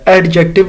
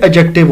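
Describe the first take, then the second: First: A d sound is pronounced before the j. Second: The d sound before the j is silent. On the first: The speaker calls it wrong. "एडजेक्टिव नहीं है" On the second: The speaker calls it right. "डी जरूर है मगर silent है"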